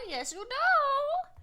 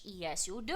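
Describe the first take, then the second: First: High, slow, stretched playful coo; sing-song squeaky teasing. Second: Lower, drawn-back playful answer; playful low reassurance; low teasing reply. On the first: Teasing answer, repeated higher. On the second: Teasing answer about deserving squish. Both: Real, not acted.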